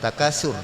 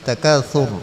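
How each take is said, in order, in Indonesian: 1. Konsonan di tengah adalah bunyi s biasa. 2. Konsonan di tengah adalah bunyi seperti th. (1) "bukan takasur" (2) "tapi takatsur"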